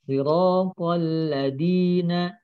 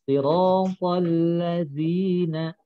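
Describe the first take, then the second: First: The middle consonant is a hard d sound. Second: The middle consonant is a soft th sound. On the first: The speaker calls it wrong. "kalau dialeknya Indonesia, huruf D. ... Itu tentunya salah" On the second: The speaker calls it right. "Yang betul adalah ujung lidah dengan ujung gigi seri"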